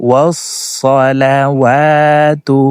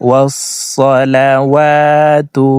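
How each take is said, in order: Both takes have the same delivery.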